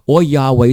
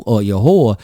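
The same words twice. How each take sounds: First: "Yahweh" said YAH-way, open ah then way. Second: "Yahweh" said yuh-HOR, a hard r at the end. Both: Shown as a demonstration. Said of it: "Some people say Yahweh".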